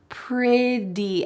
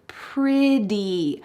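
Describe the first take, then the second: First: The middle consonant is a soft D sound. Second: The middle consonant is a soft D sound.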